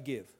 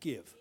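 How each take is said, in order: First: It is said plainly, without attitude. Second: It is said with attitude.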